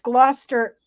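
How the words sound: It is said the UK way.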